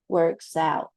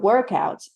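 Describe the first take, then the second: First: The stress is on the second part. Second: The stress is on the first part. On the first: It is an action. "when you're talking about an action, you're going to stress the second part" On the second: It is a thing. "When you're talking about a noun, you're going to stress the first part"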